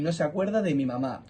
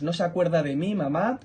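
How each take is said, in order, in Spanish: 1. Mi es átona, unida con de mamá. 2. Mi es tónica, agrupada con de, separada de mamá. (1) "como determinante ... es como si dijéramos tres palabras ... de mi mamá las tres en una palabra" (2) "como pronombre ... En la primera es como si dijéramos cuatro palabras. Juntamos se acuerda y de mí"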